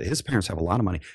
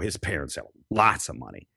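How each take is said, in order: First: It is said in a neutral, pleasant tone. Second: It is said with a disdainful tone.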